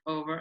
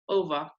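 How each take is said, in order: First: The final R is pronounced. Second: The final R is silent.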